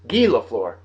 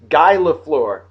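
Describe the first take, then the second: First: The name is said with French pronunciation. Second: The name is said with English pronunciation.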